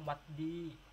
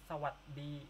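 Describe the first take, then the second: First: The greeting is clipped, dropping the 'sa'. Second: The greeting is said in full with 'sa'. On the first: This is the informal greeting. "kalau informalnya, kadang mereka cuma bilang what di" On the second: This is the formal greeting. "ini formalnya"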